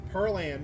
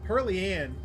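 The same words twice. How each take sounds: First: Pearl Ann as PURL-ANN, no "ee"; two syllables in Pearl Ann, first one stressed; alternative pronunciation. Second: Pearly Ann as PUR-lee-ANN; three syllables in Pearly Ann, "ee" in the middle; familiar double-name pronunciation. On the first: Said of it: "Pearly Ann sounds a lot more like". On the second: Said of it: "absolutely a name I would hear". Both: Shown as a demonstration.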